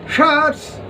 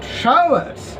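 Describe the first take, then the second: First: The word is squeezed into one syllable. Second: The word is spread over two syllables. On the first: The line scans as iambic. "if we take showers together" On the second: The line scans as amphibrach. "not showers"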